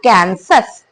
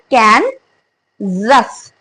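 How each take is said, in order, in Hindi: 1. s का उच्चारण सादा s की तरह होता है। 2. s का उच्चारण z की तरह होता है। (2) "Instead of S, the word will be Z"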